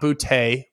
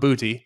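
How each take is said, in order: First: The name ends in a different vowel sound. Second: The name ends in an 'ee' sound. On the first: This is the pronunciation used before. The speaker calls it wrong. "not Boutte. It used to be Boutte" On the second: This is the current pronunciation. The speaker calls it right. "it's Booty, B O O T E E is the pronunciation guide chart. So it is Kayshon Boutte"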